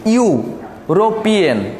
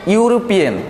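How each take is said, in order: First: ইউরোপিয়ান very slowly, split after the ইউ sound; ইউরোপিয়ান broken up. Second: Said in the usual way. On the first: Shown as a demonstration. Teacher showing students the ইউ sound, ইউরোপিয়ান sounded out slowly. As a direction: draw out ইউরোপিয়ান piece by piece. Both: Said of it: "এটা উচ্চারণ করো তুমি".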